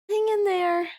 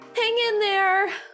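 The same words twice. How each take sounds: First: It is said flat, with little energy. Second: It is said with somewhat more energy.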